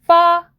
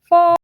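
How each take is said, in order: First: The syllable sounds tight and caught in the throat. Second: The syllable sounds soft and gently held in. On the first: The speaker calls it wrong. "목이 살짝 탁 걸리는 느낌" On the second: The speaker calls it right. "살짝 머금은 느낌으로"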